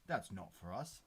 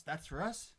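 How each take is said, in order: First: "not" stressed in a lower, falling denial; firm denial. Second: Higher, rising disbelief; incredulous question. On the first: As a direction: correct it with weight on "not". Firm denial in retold exchange. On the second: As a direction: echo it back as a puzzled question. Incredulous echo in retold exchange. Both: Retold or imitated.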